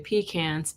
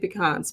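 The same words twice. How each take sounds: First: It is said the Southern way. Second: It is said the speaker's non-Southern way.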